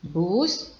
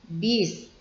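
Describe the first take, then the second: First: The vowel is pronounced 'u'. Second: The vowel is pronounced 'i'. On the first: The speaker calls it right. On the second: The speaker calls it wrong. "ini tidak baku ya"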